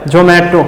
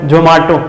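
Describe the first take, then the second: First: Zomato as "jo-may-to"; "jo-MAY-to" variant. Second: Zomato as "jo-maa-to"; "jo-MAA-to" variant. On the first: Teacher mimics ad's name dispute, Zomato as "jo-may-to". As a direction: middle of Zomato said "may", like "mate". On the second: Teacher mimics ad's name dispute, Zomato as "jo-maa-to". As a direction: middle of Zomato said with open "aa". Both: Shown as a demonstration. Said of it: "मारपीट करने लगते हैं, वैसे ही".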